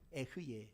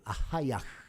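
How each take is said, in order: First: It is said as two syllables starting with 'eh'. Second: It is said as four syllables starting with 'ah'. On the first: The speaker calls it wrong. "에흐예도 아니에요. 이것도 학자들이 잘못 발음을" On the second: The speaker calls it right. "원래는 아하야흐예요"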